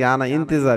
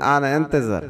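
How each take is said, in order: First: The second word starts with an 'ee' vowel. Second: The second word starts with an 'eh' vowel. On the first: The speaker calls it wrong. "আমরা বলে থাকি আনা ইন্তেজার" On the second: The speaker calls it right. "না বলে বলবেন আনা এন্তেজার"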